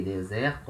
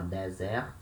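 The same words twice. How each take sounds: First: "deserto" as "day-ZEH-rtu"; closed then open E. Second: "desert" as Portuguese "deh-ZEH-rtu"; both E's open. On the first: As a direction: close only the first e of "deserto". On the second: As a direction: open both vowels of "desert", stressing the second. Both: Shown as a demonstration. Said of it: "Just like this".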